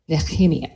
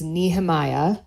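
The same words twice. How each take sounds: First: The name is pronounced the Hebrew way. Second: The name is pronounced the English way. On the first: "in Hebrew, it's pronounced" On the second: "in English, it would be pronounced"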